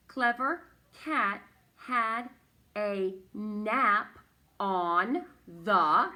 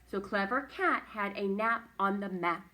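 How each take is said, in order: First: Loud, slow, each word set apart; teacher modelling careful reading, word after word. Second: Said in the usual way. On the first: Shown as a demonstration. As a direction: read it out firmly, pausing between words.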